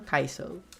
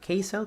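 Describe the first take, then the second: First: The first syllable sounds like the word 'eye'. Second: The first syllable sounds like the letter K. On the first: "two for Kaiso" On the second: "One for Keiso"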